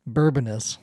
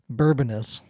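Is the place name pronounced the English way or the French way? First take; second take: English; English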